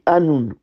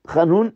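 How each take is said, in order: First: It starts with a soft, light h sound. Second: It starts with a throaty h sound. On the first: The speaker calls it wrong. "il prononce le Het comme un He" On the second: The speaker calls it right. "au lieu de dire Hanoun"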